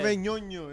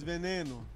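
First: The middle syllables sound like 'nyo-nyo'. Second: The middle syllables sound like 'ne-no'. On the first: The speaker calls it wrong. "it's not Veñoño" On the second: The speaker calls it right. "it's Veneno"

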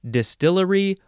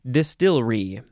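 First: The word is said with four syllables. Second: The word is said with three syllables. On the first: "four syllables" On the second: "three syllables"

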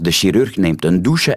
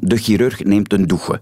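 First: Chirurg begins with a soft 'sh'. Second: Chirurg begins with a throaty rasp. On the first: The speaker calls it wrong. "En dan krijgen we een zin als" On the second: The speaker calls it right. "In mijn progressieve uitspraak"

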